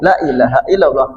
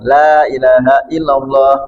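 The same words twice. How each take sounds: First: The vowel of 'la' is held short. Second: The vowel of 'la' is held long. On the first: There is a god besides Allah. The speaker calls it wrong. "Kalau dibaca pendek" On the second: There is no god but Allah. The speaker calls it right. "Jadi la-nya panjang"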